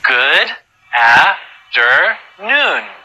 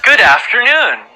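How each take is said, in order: First: It is said at a slow pace. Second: It is said at a very fast pace.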